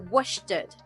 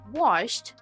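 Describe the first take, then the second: First: The ending adds an extra syllable. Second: The ending adds no extra syllable. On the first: The speaker calls it wrong. "they add extra ed to the word" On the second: The speaker calls it right. "Instead of saying washed"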